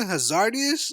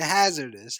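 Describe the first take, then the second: First: It has an extra 'ee' sound before the ending. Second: It has no extra sound before the ending. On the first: It repeats another person's mispronunciation. The speaker calls it wrong. "did you mention Hazardius?" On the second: It gives the intended form of the word. The speaker calls it right. "you mean hazardous?"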